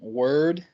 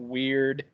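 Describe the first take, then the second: First: It is said with a rounded vowel like 'word'. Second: It is said with the vowel of 'weird'. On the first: "kind of impress upon me to pronounce it more like um, word" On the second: "some people pronounce it weird"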